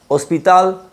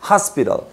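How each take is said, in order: First: The stress is on the last syllable. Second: The stress is on the first syllable. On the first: This is the Spanish word. "el acento que va en la última sílaba en español" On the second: This is the English word. "lo marcas en la primera en inglés"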